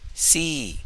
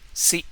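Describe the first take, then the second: First: The syllable is said on a high tone. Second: The syllable is short with a plain tone.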